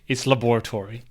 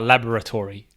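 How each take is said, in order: First: The word is pronounced as it is spelled. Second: The word is not pronounced as it is spelled. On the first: "if you're phonetic" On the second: "If you're not phonetic"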